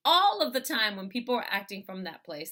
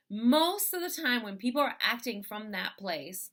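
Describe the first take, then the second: First: "all" punched louder as a firm correction; correcting to an emphatic, louder "all"; stress on ALL. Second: Emphasis landing on "most"; stress on MOST. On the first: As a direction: hit the word "all" hard. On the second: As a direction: lean on the word "most". Corrects most to all. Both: Real, not acted.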